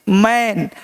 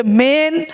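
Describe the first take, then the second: First: मैन with an open "ae", pitched lower; मैन with the wide vowel, dropping. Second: मेन with a pure long "ay"; मेन with the closed vowel. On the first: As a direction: say मैन as in English "man". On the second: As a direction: say मेन as "mayn", held. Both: Shown as a demonstration. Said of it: "वहाँ ए और यहाँ ए".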